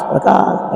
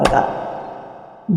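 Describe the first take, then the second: First: Said in the usual way. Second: 'Prakash' breathed out slow and almost silent; 'Prakash' drawn out as a hushed, fading whisper; whispered fade. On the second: Shown as a demonstration. Repeated word fading to whisper.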